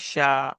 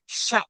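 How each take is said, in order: First: The vowel is drawn out smoothly without a catch. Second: The vowel is cut off with a sharp catch. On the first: The speaker calls it wrong. "ऐसे नहीं पढ़ेंगे" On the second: The speaker calls it right. "तो झटका हुआ ना"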